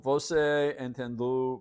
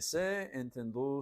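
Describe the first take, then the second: First: The first word is said in full, two syllables. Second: The first word is shortened to one syllable.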